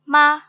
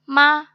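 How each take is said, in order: Both takes have the same delivery.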